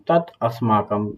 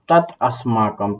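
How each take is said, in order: The two takes are said the same way.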